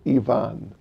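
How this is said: The name is said the Russian way.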